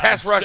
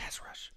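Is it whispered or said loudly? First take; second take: loud; whispered. First: It is said loudly and proudly. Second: It is said in a whisper.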